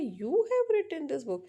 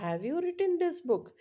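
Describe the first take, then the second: First: "You have written this book" said very slowly, pitch high, rising as a question; statement words turned into a question by slow high tune. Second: "have you written this book?" drawn out slowly, pitch rising high then falling; slow question tune on "have you written this book?"; question intonation. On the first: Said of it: "मेरे rise और falling tone से वो question बन गया". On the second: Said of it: "अगर मैंने कहा कि". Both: Shown as a demonstration.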